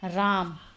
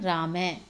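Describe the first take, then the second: First: The word ends without a final h sound. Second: The word ends with a breathy h sound.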